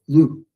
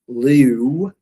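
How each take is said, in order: First: The vowel stays a single pure sound. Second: The vowel glides as a diphthong. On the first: The speaker calls it right. "it's lu" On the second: The speaker calls it wrong. "it's not liu"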